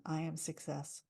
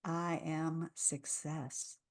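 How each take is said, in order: First: Softer, calm affirmation. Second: Very slow, soft, grounded; settled affirmation. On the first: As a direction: say it gently. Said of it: "repeat after me and listen". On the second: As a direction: settle deep into the words. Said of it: "Let's really settle into it". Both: Shown as a demonstration.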